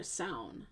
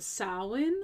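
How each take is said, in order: First: Samhain run together as SOWN, drawn out slowly; alternative pronunciation. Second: Samhain said in two syllables, SOW-in; first pronunciation. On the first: Host giving listeners the other pronunciation, Samhain as SOWN. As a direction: say Samhain slowly, nearly one syllable, SOWN. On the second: Host naming the festival for listeners, Samhain as SOW-in. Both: Shown as a demonstration. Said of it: "as some would pronounce it".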